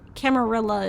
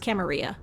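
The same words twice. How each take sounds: First: It is pronounced the English way. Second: It is pronounced the Spanish or Italian way. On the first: "But Camarilla is English" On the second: "if you're speaking Spanish or Italian, it's Camarilla"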